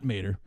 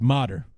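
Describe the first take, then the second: First: The name is said as Mader. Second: The name is said as Motter. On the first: The speaker calls it wrong. "I was pr- mispronouncing his name" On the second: The speaker calls it right. "his name is Motter"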